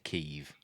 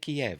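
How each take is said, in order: First: The city name is said the non-British way. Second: The city name is said the British way. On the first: This is the form the speaker rejects. The speaker calls it wrong. "I'm not going to say Kiev" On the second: This is the form the speaker uses. The speaker calls it right. "I'm British. I pronounce it Kiev"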